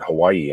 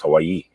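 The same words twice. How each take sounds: First: It is said the usual mainland way. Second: It is said the local island way. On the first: "you're not pronouncing it Hawaii anymore" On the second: "It's Hawaii"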